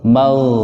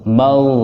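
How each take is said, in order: The two takes are said the same way.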